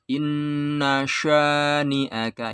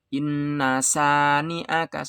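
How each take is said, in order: First: The second word begins with a sh sound. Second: The second word begins with a plain s sound. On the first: The speaker calls it right. "Harus inna syani'aka ya, sya ya, shin besar" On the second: The speaker calls it wrong. "Gak boleh dibaca inna sani'aka, salah"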